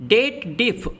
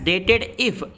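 First: It is split as 'date' plus 'diff'. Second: It is split as 'dated' plus 'if'. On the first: The speaker calls it right. "but real formula is date diff" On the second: The speaker calls it wrong. "lots of people say it as dated if"

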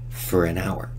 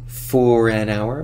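First: The word 'for' is unstressed and reduced to 'fur'. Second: The word 'for' has a full, stressed vowel. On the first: The speaker calls it right. "we de-stress for and reduce the vowel to just fur" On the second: The speaker calls it wrong. "Not for an hour"

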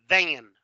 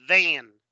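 Both takes have the same delivery.

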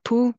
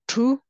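First: The word begins with a p sound. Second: The word begins with a t sound. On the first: This is how most people actually say it. "most people pronounce it pu" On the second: This is the form the spelling suggests. "normally would be pronounced tu"

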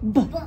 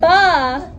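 First: The b sound is short with no vowel after it. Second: The b sound has a vowel added after it. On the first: The speaker calls it right. "Look. B" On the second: The speaker calls it wrong. "Not ba"

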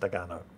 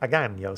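First: The name is said plainly without any flourish. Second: The name is said with an Italian-sounding flourish. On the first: The speaker calls it right. "It's probably just Agano" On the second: The speaker calls it wrong. "sounds a bit too Italian"

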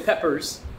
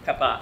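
First: The name ends in an 'ers' sound. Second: The name ends in a plain 'a' vowel. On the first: The speaker calls it wrong. "Don't say peppers" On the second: The speaker calls it right. "it's Peppa"

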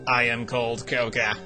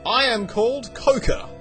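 First: It is said in a stronger put-on robot voice. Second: It is said in a plainer, weaker character voice.

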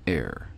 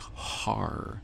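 First: The word begins with a vowel, no h. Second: The word begins with an h sound. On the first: This is the reading the speaker uses. "that word is Er, E-R" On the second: This follows the Masoretic vowel tradition. "most people who believe in the Masoretic coding of the Hebrew scriptures would pronounce it as"

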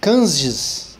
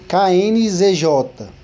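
First: The letters are blended into one word. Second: Each letter is said separately. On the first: The speaker calls it wrong. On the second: The speaker calls it right.

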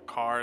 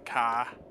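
First: It is said with a standard accent. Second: It is said with a Boston accent.

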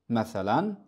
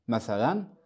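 Both takes have the same delivery.

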